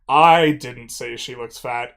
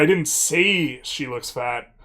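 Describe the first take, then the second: First: The word "I" carries the stress. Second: The word "say" carries the stress. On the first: Someone else said it. "implies that I didn't say she looked fat, but someone did" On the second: The speaker thought it but never said it. "means I didn't say it, but I thought it"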